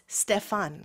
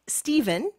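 First: The name is said with German pronunciation. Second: The name is said with English pronunciation. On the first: "The German pronunciation is Stefan" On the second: "But it's Stephen in English"

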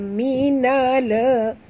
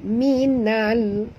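First: The final l is released with an extra vowel. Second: The final l ends cleanly without a vowel. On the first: The speaker calls it wrong. "Jangan baca minala" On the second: The speaker calls it right. "bunyikan tanpa lantunan"

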